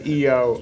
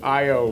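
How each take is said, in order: First: The first vowel sounds like 'ee'. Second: The first vowel sounds like 'eye'. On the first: The speaker calls it wrong. "I always say uh, E O" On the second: The speaker calls it right. "I O is the correct pronunciation"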